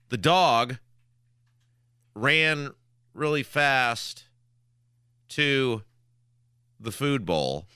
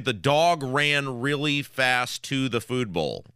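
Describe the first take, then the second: First: It is said in choppy, broken bits. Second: It is said smoothly without breaks.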